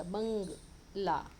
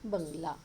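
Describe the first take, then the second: First: बंगला slowly in two parts, बंग then ला; split pronunciation. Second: Said in the usual way. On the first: Shown as a demonstration. Teacher showing children where the anusvara sounds, बंगला slowly split. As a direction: stretch the nasal ng in बंगला, then add ला. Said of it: "उस अक्षर के बाद में उसका pronunciation आता". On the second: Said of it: "उसके आगे आएगा बंगला".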